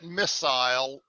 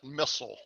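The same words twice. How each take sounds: First: It is said with a British pronunciation. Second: It is said with an American pronunciation. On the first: "The British call it missile" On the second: "Americans call it missile"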